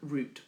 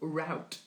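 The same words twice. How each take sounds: First: The word is said the British way. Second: The word is said the American way.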